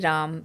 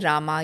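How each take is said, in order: First: The word ends on the final consonant. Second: The word ends with a final vowel. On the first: This is how it is said in North India. "in North India, you say" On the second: This is how it is said in South India. "In South India, you say"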